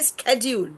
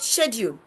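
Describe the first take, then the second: First: It is said with an American pronunciation. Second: It is said with a British pronunciation. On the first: "you will see they will never say schedule" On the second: "They said schedule"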